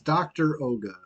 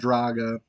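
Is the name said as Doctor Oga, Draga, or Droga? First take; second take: Doctor Oga; Draga. First: It is split into doctor plus Oga. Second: It is one word with an a vowel. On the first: The speaker calls it right. "it's doctor Oga" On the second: The speaker calls it wrong. "it's not Draga"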